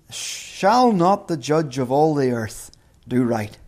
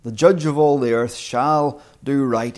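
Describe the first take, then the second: First: Slow, unsure asking of the question; wondering, slow rhetorical question. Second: Firm, falling, settled statement; confident creed-like statement; statement of belief. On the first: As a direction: ask it as if not sure. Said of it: "We can say it as a question". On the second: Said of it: "Or a statement of belief". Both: Shown as a demonstration.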